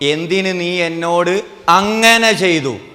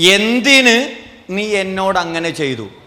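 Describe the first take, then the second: First: The stress falls on the word ചെയ്തു. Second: The stress falls on the word എന്തിന്. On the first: The act itself is the issue. "ആ ചെയ്തതാ പ്രശ്നം" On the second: The reason for the act is the issue. "എന്തിന് ചെയ്തു എന്നുള്ളതാണ് പ്രശ്നം"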